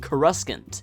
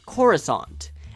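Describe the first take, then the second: First: The second C sound is pronounced. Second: The second C sound is left silent. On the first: The speaker calls it wrong. "tricks people into pronouncing it the extremely ugly-sounding" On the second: The speaker calls it right. "it becomes clear that the second C is silent"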